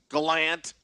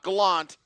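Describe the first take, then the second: First: The last syllable sounds like 'ant'. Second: The last syllable sounds like 'aunt'. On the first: The speaker calls it right. "like Ant instead of Aunt" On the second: The speaker calls it wrong. "not Gallant"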